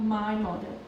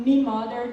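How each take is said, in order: First: Said in the usual way. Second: "me mother" with "me" in place of "my"; Irish "me" for my. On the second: Shown as a demonstration. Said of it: "they say me instead of my".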